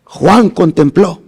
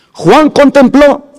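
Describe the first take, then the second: First: Said in the usual way. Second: Higher and slow, preaching emphasis on contempló; raised emphatic repeat. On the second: Shown as a demonstration. Preacher repeating to his congregation for impact, raised and emphatic. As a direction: lift the repeated phrase into a proclamation. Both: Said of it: "Juan contempló (repeated)".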